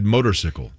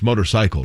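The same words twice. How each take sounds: First: The ending sounds like sickle. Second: The ending sounds like cycle. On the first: The speaker calls it wrong. "I've always said motorcycle" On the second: The speaker calls it right. "and it's motorcycle"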